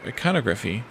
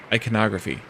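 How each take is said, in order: First: "iconography" as eye-CON-uh-gruh-fee, questioning; odd pronunciation. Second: "Iconography" as eye-kuh-NOG-ruh-fee; correct pronunciation. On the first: Real, not acted. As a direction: stress the CON in "iconography", unsure of it. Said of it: "I'm saying that weirdly". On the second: Shown as a demonstration. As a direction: stress the NOG in "Iconography", ending on a fall. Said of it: "the way that it's supposed to be pronounced".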